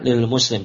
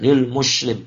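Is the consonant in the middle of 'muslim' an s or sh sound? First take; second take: s; sh. First: The middle consonant is pronounced as s. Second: The middle consonant is pronounced as sh. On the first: The speaker calls it right. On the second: The speaker calls it wrong.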